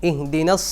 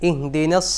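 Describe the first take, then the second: No difference in how they are said.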